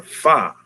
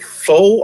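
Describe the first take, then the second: First: Second "pho" opened to "fah" or "fuh". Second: First "pho" said like "foe", drawn out. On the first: Host asks viewers which is right, "pho" said as "fuh". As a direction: say "pho" with an open vowel, no O. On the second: Host asks viewers which is right, "pho" said as "foe". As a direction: say "pho" with a long O. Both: Shown as a demonstration. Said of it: "Is it pho or pho?".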